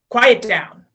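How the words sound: The command is said in a puffed-up, forceful way.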